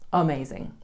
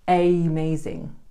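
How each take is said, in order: First: The first vowel is a weak schwa sound. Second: The first vowel is a full, strong vowel. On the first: The speaker calls it right. "we have the schwa-yi sound at the beginning" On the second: The speaker calls it wrong. "we don't say amazing"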